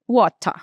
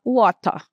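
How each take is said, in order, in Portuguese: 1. O T é nítido; o R final quase desaparece. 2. O T é nítido; o R final quase desaparece.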